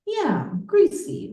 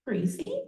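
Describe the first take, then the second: First: "Yeah, greasy" much higher and louder, stretched; emphatic answer. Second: "Greasy?" asked with a sharp rising pitch; doubtful echo, rising "Greasy?"; puzzled question. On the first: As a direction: confirm "greasy" with strong emphasis. Friend affirms in poem. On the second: Friend questions word in poem. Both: Acted.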